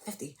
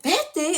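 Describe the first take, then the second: First: Very soft, low aside; hushed retold answer. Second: High, incredulous mock outburst; shocked echo. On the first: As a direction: slip it out quietly, imitating a secret reply. Secret price named during detention. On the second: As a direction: repeat it in imitated disbelief, pitch jumping up.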